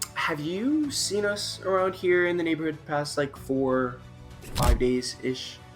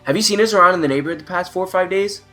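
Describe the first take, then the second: First: It is asked in a lively, curious tone. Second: It is asked in a plain, flat tone. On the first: It builds curiosity in the listener. The speaker calls it right. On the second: It gets a response but builds no curiosity. The speaker calls it wrong.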